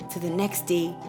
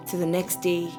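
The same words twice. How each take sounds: The two takes are said the same way.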